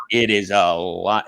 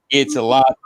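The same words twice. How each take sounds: First: "It is a lot" lower and slow, uncontracted; drawn-out emphasis. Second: Said in the usual way. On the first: Real, not acted. Host sympathizing with someone living through it, drawn-out emphasis on "is a lot". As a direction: stretch out "It is a lot", dropping the pitch.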